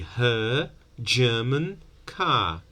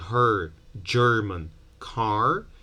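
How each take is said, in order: First: The r after each vowel is silent. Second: The r after each vowel is pronounced. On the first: "people say her German car. ... This is non-rhotic variety" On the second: "instead of saying her German car"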